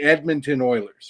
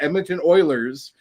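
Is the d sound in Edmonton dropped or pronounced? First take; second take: pronounced; dropped. First: The d sound in Edmonton is clearly pronounced. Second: The d sound in Edmonton is dropped. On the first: The speaker calls it right. "you have to have that D in there" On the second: The speaker calls it wrong. "the Ed would wouldn't go through"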